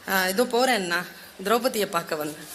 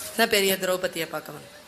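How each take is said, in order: First: Said in the usual way. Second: Sneering echo of என்ன பெரிய திரௌபதியை with a falling scornful tone; mocking repeat. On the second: Dharma mocking Arjuna's excuse, with a scornful echo. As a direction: throw the younger brother's words back at him. Elder brother mocks Arjuna's words.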